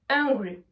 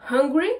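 First: Hungry with no h, like angry, falling. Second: Hungry with audible h, rising at the end; louder Hungry opening on a puff of h; breathed H. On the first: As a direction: start hungry straight on the vowel. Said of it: "pour qu'on distingue bien les deux mots". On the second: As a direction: sound the h in Hungry. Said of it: "vous vous entraînez à prononcer les mots". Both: Shown as a demonstration.

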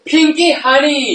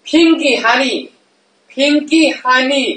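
First: Pinky Honey, Pinky a bit higher and stressed; repeating the name. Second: Pinky Honey, with the stress on Pinky; sounding out a name. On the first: Streamer repeats the drink name for chat, stressing Pinky. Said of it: "อะไรนะ?". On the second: Streamer tries out a cute drink name, stressing Pinky. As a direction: savour the word Pinky in Pinky Honey. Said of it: "This name is so cute". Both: Shown as a demonstration.

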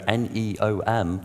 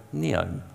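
First: N E O M said as four separate letters, en ee oh em; spelled letter by letter. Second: Neom said as one word, nee-om. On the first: Speaker shows the audience the wrong reading, spelling it out. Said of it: "they don't want you to go N E O M". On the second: Speaker gives the audience the right reading, one word. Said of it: "they want you to go neom". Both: Shown as a demonstration.

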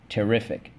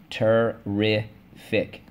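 First: Said in the usual way. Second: "terrific" stretched slowly as ter-rif-ic; syllable by syllable. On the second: Shown as a demonstration. Teacher leading the class, slowly syllable by syllable. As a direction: tap "terrific" out slowly, one syllable at a time. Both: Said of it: "let's go".

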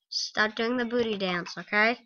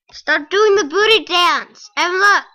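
First: Said in the usual way. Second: Higher, louder scold at the dog. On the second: Real, not acted. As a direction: shout at the dog to stop.

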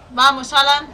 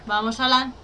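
First: Louder, pressing the character on; urgent urging. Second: Said in the usual way. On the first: Real, not acted. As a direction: push him on urgently. (animando con urgencia)

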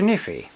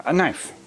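First: "kniffy" with the k sounded, kuh-NIFF-ee; silly "kniffy" with a voiced k; playful mispronunciation. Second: Said in the usual way.

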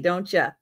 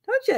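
First: Said in the usual way. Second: Don't ya? squeaked much higher, cooing; sweet high pet voice; high pet-talk coo. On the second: Real, not acted. Cooing to her pet Joe.

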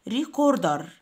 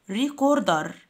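Both takes have the same delivery.

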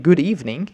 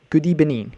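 First: Said in the usual way. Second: "good evening" said as "goodee-benin"; coach's mispronunciation. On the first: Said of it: "instead of saying". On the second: Retold or imitated. Quoting the football coach, "good evening" mispronounced as "goodee-benin". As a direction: imitate an accented "good evening", v turned to b. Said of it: "he was saying".

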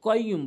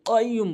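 First: কাইয়্যুম with an everyday front k; plain k. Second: কাইয়্যুম with q from the tongue root; deep qaf. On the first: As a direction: say কাইয়্যুম with a light k, as a common mistake. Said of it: "অনেকে কাইয়্যুম বলে". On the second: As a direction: start কাইয়্যুম far back against the palate. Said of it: "বলতে হবে". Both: Shown as a demonstration.

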